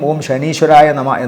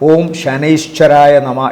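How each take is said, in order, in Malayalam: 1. ആ പേരിലെ രണ്ടാമത്തെ അക്ഷരത്തിൽ ദീർഘമായ 'ee' സ്വരമുണ്ട്. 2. ആ പേരിലെ രണ്ടാമത്തെ അക്ഷരത്തിൽ 'ai' എന്ന ദ്വിസ്വരമുണ്ട്. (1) "പലരും ചോദിക്കും ഓം ശനീശ്വരായ നമ എന്നാണോ എന്ന്. അതല്ല" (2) "ശരിക്കും ഓം ശനൈശ്വരായ നമ എന്നാണ് ജപം"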